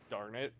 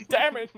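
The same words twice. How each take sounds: First: Quiet, muted little curse; under his breath. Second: High, loud outburst; comic exclamation, pitched way up; loud mock curse. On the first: Acted. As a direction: swear softly to yourself. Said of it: "like, under his breath". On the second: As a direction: blurt the swear out, hammed-up. Joking louder take of muttered curse.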